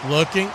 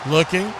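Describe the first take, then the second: No difference in how they are said.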